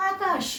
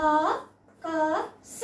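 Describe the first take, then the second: First: "ఆకాష్" joined, ending on a bare sh; "ఆకాష్" as one Hindi word; half final letter. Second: "ఆకాశ" very slowly, final a sounded; "ఆకాశ" as three full, separate sounds; letter by letter. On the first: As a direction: say "ఆకాష్" with no vowel after sh. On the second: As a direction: spell out "ఆకాశ" with pauses between syllables. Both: Shown as a demonstration. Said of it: "చివరి అక్షరాల్ని హాఫే పలుకుతున్నాం".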